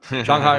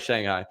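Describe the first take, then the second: First: The name is said in a Chinese-like way. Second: The name is said in an American way. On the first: "the actual pronunciation" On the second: "the Americanized pronunciation"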